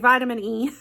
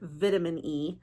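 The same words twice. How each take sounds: First: It is said with an American accent. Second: It is said with a British accent. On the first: "I'm American, so I say" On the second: "in her British accent, she says"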